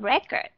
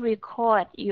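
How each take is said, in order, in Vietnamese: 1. Trọng âm rơi vào âm tiết thứ nhất. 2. Trọng âm rơi vào âm tiết thứ hai. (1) "Nó có thể là cái hồ sơ của một cái học sinh nào đó" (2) "nó là một cái động từ"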